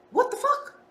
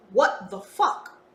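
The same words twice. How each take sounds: First: High-pitched squeak of amazement; stunned disbelief. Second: Said in the usual way. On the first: Retold or imitated. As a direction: squeal it like you can't believe it. Inner quote of amazed disbelief.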